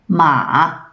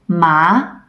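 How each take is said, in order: First: The pitch stays very low and deep. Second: The pitch rises like a question. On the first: It means horse. "repeat after me for the valley tone" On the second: It means hemp. "repeat after me for the rising tone"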